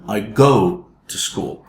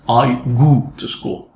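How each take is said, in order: First: The vowel in go is a gliding diphthong. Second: The vowel in go is a pure u sound. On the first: The speaker calls it right. "The correction" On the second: The speaker calls it wrong. "That's the mistake"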